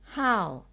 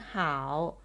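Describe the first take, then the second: First: It is said with the fourth, falling tone. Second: It is said with the third, dipping tone. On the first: "fourth tone" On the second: "pronounced as the third tone"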